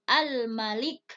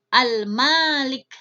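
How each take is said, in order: First: The first vowel is said short. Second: The first vowel is said long. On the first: It means king. "jadi dengan pendek eh, raja" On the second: It means the one who owns. "boleh kita membaca dengan panjang"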